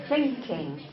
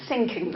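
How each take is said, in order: First: "thinking" with a clear, slow "th"; tongue between the teeth to start "thinking". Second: "Sinking" with a hissed "s" at the start. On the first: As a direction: model "thinking" slowly, not "sinking". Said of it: "think and sink". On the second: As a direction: say "Sinking" as a mistaken "thinking". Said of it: "Not I'm sinking". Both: Shown as a demonstration.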